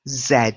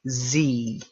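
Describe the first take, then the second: First: The letter is said like "zed", rhyming with bed. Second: The letter is said like "zee", rhyming with E. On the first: This is how British speakers say it. "British speakers say Z" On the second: This is how Americans say it. "Americans say Z"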